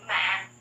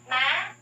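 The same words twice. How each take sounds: First: MA dropped right down low; really low tone. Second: MA swept up to a high end; really high tone. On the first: Teacher shows learners the difficult sixth tone, MA really low. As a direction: bottom out on MA. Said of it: "and then really low". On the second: Teacher shows learners the difficult fifth tone, MA really high and rising. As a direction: reach up high on MA. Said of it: "to reach a really high". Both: Shown as a demonstration.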